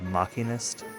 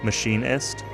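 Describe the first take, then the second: First: The 'ch' is said as a 'k' sound. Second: The 'ch' is said as an 'sh' sound. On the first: It follows the way a related game term is said. "after playing F F ten where it was machina, I guess maybe machinist?" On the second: It is the usual expected way to say it. "that's how I normally would have expected to say it"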